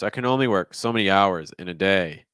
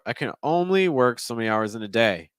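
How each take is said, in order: First: The sentence is split into three phrases. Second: The sentence is split into two phrases. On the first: "so you're giving me three thought groups" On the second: "I would have done two thought groups personally"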